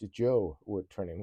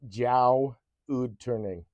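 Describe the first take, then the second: First: The name starts with 'joe' and then 'wood'. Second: The name starts with 'jow' and then 'ood'. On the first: The handle as it is meant to be read. The speaker calls it right. "and not just Joe Wood Turning" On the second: A speech program misreads the handle. The speaker calls it wrong. "It's pronouncing it as just Jow Ood Turning"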